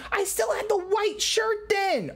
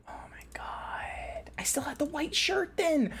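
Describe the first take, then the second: First: Said in the usual way. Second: Breathless whisper of awe; awed whisper. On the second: Real, not acted. Streamer seeing her old avatar, awed whisper.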